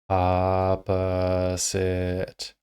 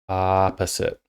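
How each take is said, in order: First: More than the first vowel is drawn out. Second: Only the first vowel is drawn out. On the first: The speaker calls it wrong. "So it's not opposite" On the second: The speaker calls it right. "I'm only stretching on that first vowel sound"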